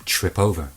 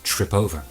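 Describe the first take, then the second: First: The two words blend into one unit. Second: The two words blend into one unit.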